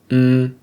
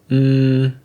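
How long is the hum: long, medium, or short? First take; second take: medium; long. First: The hum is held a medium time. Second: The hum is held a long time. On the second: "and three"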